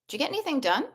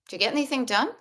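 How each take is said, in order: First: The question sounds light, neutral and curious. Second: The same.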